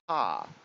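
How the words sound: The final R sound is left off. The speaker calls it wrong. "she will take the R off of it"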